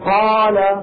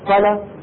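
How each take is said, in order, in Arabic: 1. الحركة في الكلمة طويلة. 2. الحركة في الكلمة قصيرة. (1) "قاف مفتوحه بعدها الف بعدها لام" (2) "قاف مفتوحه بعدها لام، ما في بينهم الف"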